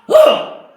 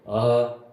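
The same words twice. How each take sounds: First: The ah sounds angry. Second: The ah sounds calm.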